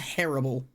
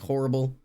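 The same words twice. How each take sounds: First: The first vowel sounds like an 'a'. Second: The first vowel sounds like an 'o'. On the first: This is how the other person says it. "your yours is distinctly an A" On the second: This is how the speaker says it. "mine's just like horrible"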